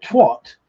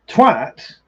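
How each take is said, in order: First: "twat" with a rounded o, as in hot; comic pronunciation. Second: "Twat" with a short a, as in cat; aggressive pronunciation. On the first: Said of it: "says it in the right accent". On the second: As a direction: say "Twat" to rhyme with hat, punched. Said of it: "is more of an aggressive". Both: Shown as a demonstration.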